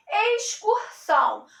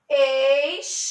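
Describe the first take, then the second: First: Said in the usual way. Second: "Excursão" split into ex, cur, são, long pauses between; syllable by syllable. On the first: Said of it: "Vamos fazer a separação silábica". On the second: Shown as a demonstration. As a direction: break "Excursão" into three separate syllables. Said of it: "Vamos fazer a separação silábica de excursão".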